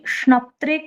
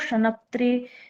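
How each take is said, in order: First: The first two consonants are joined with no vowel. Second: A short vowel separates the first two consonants. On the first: The speaker calls it right. "जो हलंत है" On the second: The speaker calls it wrong. "इस प्रकार से पढ़ रहे हैं"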